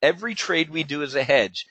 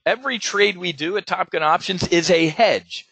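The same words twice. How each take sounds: First: Measured repeat for emphasis; slow repeat. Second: Said in the usual way. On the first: Shown as a demonstration. Trader repeats his hedging rule to folks, slow repeat. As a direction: repeat it deliberately for the listeners. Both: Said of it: "Let me say that again slowly".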